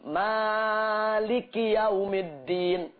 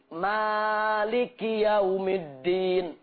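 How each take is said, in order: First: The vowel after the first m is long. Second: The vowel after the first m is long.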